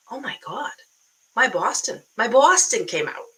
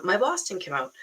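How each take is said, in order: First: Put-on louder Boston accent, slipping toward New York; exaggerated Boston accent. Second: Milder Boston accent, second attempt; retry it in an everyday Boston accent. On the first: Coach hearing herself on video, hammed-up Boston accent. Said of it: "that's a little bit New York". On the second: Coach correcting her New York slip, light Boston accent. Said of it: "that's a little bit New York, but".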